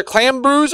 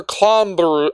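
First: "Clambrews" with a flat A as in clam; "Clambrews", first vowel as in "jam"; pronunciation option. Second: "Clombrew" with an open AH in the first syllable; "Clombrew", first vowel as in "calm"; pronunciation option. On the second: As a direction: say "Clombrew" with "clom" rhyming with "bomb". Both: Shown as a demonstration. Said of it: "it's either Clambrews or Clombrew".

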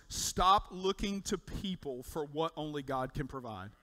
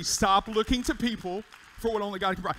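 First: Said in the usual way. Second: The key line again, louder and ringing; loud emphatic repeat. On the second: Shown as a demonstration. Pastor repeating the first key to the church, louder. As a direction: hammer it home for the congregation. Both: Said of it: "That's the first key".

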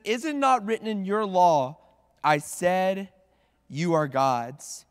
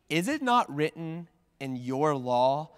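First: NOT stressed, louder with a falling end on "law"; firm rebuke. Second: NOT leaned on, slow rising question "Is it not written in your law?". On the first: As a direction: press it home as a rebuke. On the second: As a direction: ask it slowly, lifting at the end. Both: Shown as a demonstration. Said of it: "I don't know how you imagine him saying this next phrase".

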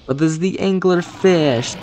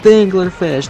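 First: High, drawn-out boss announcement; dramatic announcer. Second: High, loud repeated name; booming announcement. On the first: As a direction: build it up like a showman. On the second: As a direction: boom the name out. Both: Acted.

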